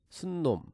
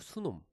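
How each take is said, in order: First: An extra n sound joins the two syllables. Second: No extra n sound joins the two syllables. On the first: The speaker calls it wrong. "제가 틀린 발음으로 한번 발음을 할게요" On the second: The speaker calls it right. "그냥 그대로 수놈"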